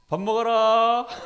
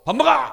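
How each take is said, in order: First: It is said in a calm, gentle tone. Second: It is said in an irritated, harsh tone.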